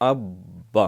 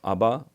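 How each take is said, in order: First: The b sound is held and doubled. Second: The b sound is short and single. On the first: The speaker calls it right. "जब शद होती है तो उसमें जमाव होता है, ठहराव होता है" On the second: The speaker calls it wrong. "ये बिल्कुल गलत है"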